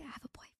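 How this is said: It is said in a whisper.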